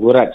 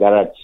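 First: The word is said like the name 'Gurraj'. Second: The word is said like the standard 'garage'. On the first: It is the speaker's name. The speaker calls it right. "I'm garage" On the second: It is a car repair shop. The speaker calls it wrong. "not garage"

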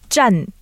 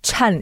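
First: The first consonant has no puff of air. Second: The first consonant has a strong puff of air. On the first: The speaker calls it right. "It's not pushing the air" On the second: The speaker calls it wrong. "真 is not 真"

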